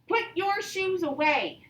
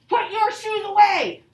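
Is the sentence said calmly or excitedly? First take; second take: calmly; excitedly. First: It is said calmly, without excitement. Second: It is said excitedly, with strong feeling. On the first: It is a plain command. "Am I showing a lot of excitement in this one" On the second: It is an exclamation. "I'm showing a lot of feeling with it"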